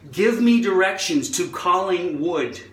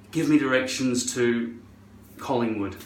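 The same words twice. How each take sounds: First: Put-on American accent, emphatic; over-enunciate it in American. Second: Low-key Scottish request; own Scottish accent. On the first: Repeating the request to Siri in a put-on American accent. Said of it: "speak with an American accent". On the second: Retold or imitated. Talking to Siri in their own Scottish accent. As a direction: ask plainly in a Scottish accent. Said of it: "I say in my accent".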